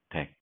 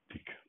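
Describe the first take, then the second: First: It is said as one syllable, deck. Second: It is said as two syllables, dee-queue. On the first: The speaker calls it right. "덱이라고 발음을 해요" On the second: The speaker calls it wrong. "저렇게 디큐로 발음하지 않고"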